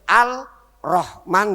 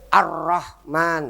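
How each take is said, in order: First: The L sound is clearly pronounced before R. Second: The L sound merges into a doubled R. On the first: The speaker calls it wrong. "enggak boleh" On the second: The speaker calls it right. "Kanjeng Nabi bacanya Ar-Rahman"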